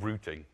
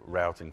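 First: The word is said with a non-American pronunciation. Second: The word is said with an American pronunciation. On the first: This is the speaker's own usual pronunciation. "because that's how I say it" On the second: This pronunciation suits an American audience. "But I'm in America today, so we'll say routing for you"

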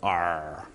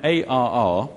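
First: It is said as one pirate-like word. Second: It is spelled out as three separate letters. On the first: It sounds like a pirate's exclamation. The speaker calls it wrong. "a pirate's favorite product" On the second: It names the product properly. The speaker calls it right. "to give it its perhaps better pronunciation"

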